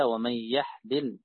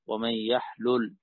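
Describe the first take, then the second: First: يحلل said yahlil, lam with i; يحلل ending in -lil; kasra on lam. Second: يحلل said yahlul, lam with u; يحلل ending in -lul; damma on lam. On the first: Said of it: "بكسر اللام". (يحلل بكسر اللام) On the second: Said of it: "وضمها". (يحلل بضم اللام) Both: Shown as a demonstration.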